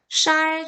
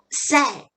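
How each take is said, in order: First: The first sound is said with the tongue curled. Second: The first sound is a plain Korean s. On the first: The speaker calls it wrong. "선생님이 뭐라고 했냐면 쌀 주세요 이랬어요" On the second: The speaker calls it right. "이래야 되는데"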